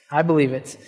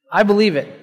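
First: Softer, lower, inward repeat of I believe it; soft affirmation. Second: Said in the usual way. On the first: Real, not acted. Pastor quietly repeats his belief to the congregation, hushed and sincere. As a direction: say it again almost to yourself.

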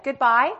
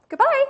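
First: Zealous goodbye. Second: A much higher, loud, ringing goodbye; a dying mother's fervent farewell, high and loud; zealous goodbye. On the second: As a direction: cry goodbye out high and strong with zeal. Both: Retold or imitated. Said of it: "a zeal in her voice".

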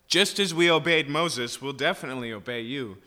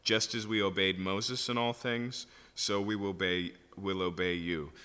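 First: Cocky overconfident promise, first words higher and louder; presumptuous. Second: Said in the usual way. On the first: Shown as a demonstration. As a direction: brag like you could never fail. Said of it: "a presumptuousness that things are different now". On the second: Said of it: "you should probably chuckle".

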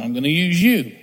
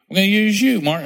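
First: Said in the usual way. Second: Higher and louder, pressing the call home; insistent repeat. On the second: Acted. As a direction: raise it up and insist, calling Mark by name. God repeats, pressing Mark.

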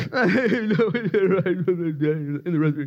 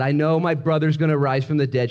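First: High, put-on snippy voice; laughing, hammed-up imitation; mock snippy. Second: Said in the usual way. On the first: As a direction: mimic her with exaggerated attitude. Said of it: "She's kinda sn". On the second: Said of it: "She said".

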